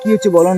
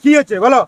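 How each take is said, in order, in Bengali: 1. কোমল, বন্ধুত্বপূর্ণ সুরে বলা হয়েছে। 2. রাগী, কড়া সুরে বলা হয়েছে। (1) "একটু ভালো বেসাও তো বলতে পারো।" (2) "ওরকম রেগে বলো তো কেন?"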